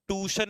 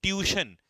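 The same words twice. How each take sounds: First: ट्यूशन said as "tushan", no y glide; the mistaken ट्यूशन, plain "too-shun"; ट्यूशन as students wrongly say it, without the "yoo"; wrong pronunciation. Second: ट्यूशन said "tyoo-shun" with a clear y glide, pitched up; ट्यूशन the right way, "tyoo-shun"; correct pronunciation. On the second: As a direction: stress the "yoo" in ट्यूशन. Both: Shown as a demonstration. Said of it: "ट्यूशन नहीं".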